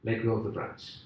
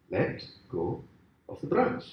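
First: Low, soft, matter-of-fact instruction; calm God. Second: "Let go", pause, "of the branch", spelled out patiently; deliberate repetition. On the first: God instructs the dangling man, low and calm. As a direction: say it quietly as God, in one smooth run. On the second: God repeats it to the shocked man, "Let go ... of the branch" in deliberate pieces. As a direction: separate "Let go" low and soft, then lift "of the branch". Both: Acted.

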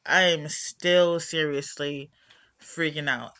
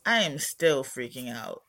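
First: "I am still seriously freaking out" said slower and louder, leaning on "seriously"; "seriously" stretched and louder, full insistence; stress on seriously. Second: Said in the usual way. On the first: Real, not acted. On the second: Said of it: "Meanwhile, I'm still freaking out".

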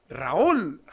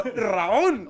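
First: A loud retold call across the station; calling out a name. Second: Put-on Raúl called in a loud Russian accent. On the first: Spotting him on the escalator, calling out loudly. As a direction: shout the name, louder. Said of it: "y lo digo". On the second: Imitating the Russian guy calling him in a loud Russian accent. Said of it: "Tenía, tenía acento ruso".

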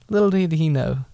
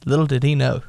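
First: Little did he know with a laugh; chuckling. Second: Said in the usual way. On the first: Shown as a demonstration. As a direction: relish the irony, laughing.

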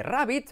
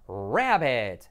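First: "rabbit" as RRAH-beet; Spanish vowels in "rabbit"; pronunciación errónea. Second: "rabbit" slow as RA-bet; pronunciación correcta. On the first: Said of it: "pasas de rabbit". ("rabbit" a la española, «rábit») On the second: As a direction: stretch "rabbit", English r, ending in short e. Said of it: "la I como una E". ("rabbit" alargado, «raaa-bet») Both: Shown as a demonstration.

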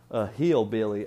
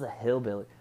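First: Trying out a hillbilly twang; hillbilly accent. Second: Said in the usual way. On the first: Shown as a demonstration. Vlogger warming up an impression, hillbilly accent. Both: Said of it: "how does a hillbilly".

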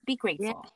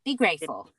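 First: "Be grateful" again, higher, softer, with a rise; softer, higher repeat. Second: Said in the usual way. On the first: Shown as a demonstration. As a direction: gently press the reminder home.

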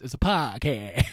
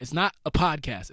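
First: PODCAST stretched into "pah-caa"; podcast as a long, open "pah-caaa"; playful mispronunciation. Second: PODCAST with its d and st sounded; podcast said the ordinary way, as the rejected version; standard pronunciation. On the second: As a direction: punch NOT, then pronounce podcast fully. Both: Shown as a demonstration.

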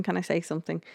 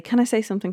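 First: Same plea again, much softer; softer repeat. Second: Pressing to be heard, a touch higher; pushy interruption. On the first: Harry repeating his plea to Lord Sugar, trailing softer. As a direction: let the repeat fall away quietly. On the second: Harry pushing into the boardroom argument, mild insistence. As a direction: butt in to get the floor. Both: Retold or imitated. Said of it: "Harry keeps on saying".

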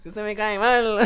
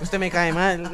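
First: Higher and louder, exaggerated local Colombian accent; over-the-top local Colombian accent, loud; mock local accent again. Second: Louder, teasing costeño-style put-down; a loud, playful jab in a local Colombian accent; mocking regional accent. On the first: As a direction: push the accent further for a laugh. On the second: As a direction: fling the line in a mock local accent. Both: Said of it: "Qué acento tan feo".

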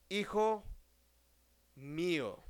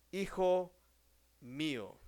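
Both takes have the same delivery.

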